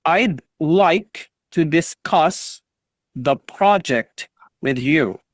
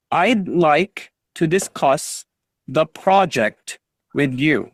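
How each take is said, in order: Both takes have the same delivery.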